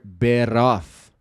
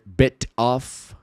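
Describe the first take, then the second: First: The t is a quick tap like r. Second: The t is a clear, released t sound. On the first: The speaker calls it right. "T, pega o som do R, o R do português" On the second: The speaker calls it wrong. "ao invés de dizer bit off"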